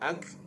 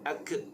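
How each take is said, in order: First: The k is released with soft breathy air. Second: The k is released with an echoing bounce. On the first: The speaker calls it right. "ak mahmus, kaf menjadi mahmus" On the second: The speaker calls it wrong. "jangan ak, itu dah jadi qalqalah"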